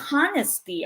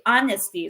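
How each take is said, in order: First: The word begins with a pronounced h sound. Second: The word begins without an h sound. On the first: The speaker calls it wrong. "So we don't say honesty" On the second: The speaker calls it right. "So we say honesty, silent H po siya"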